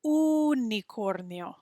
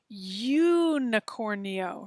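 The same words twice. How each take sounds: First: Slow "unicornio" starting on a pure oo, no y; "unicornio" said the right Spanish way, oo-nicornio. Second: Slow "unicornio" starting with an English you sound; "unicornio" said the wrong English way, as you-nicornio; anglicized unicornio. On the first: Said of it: "But we don't wanna say unicornio". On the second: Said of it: "it's hard not to say". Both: Shown as a demonstration.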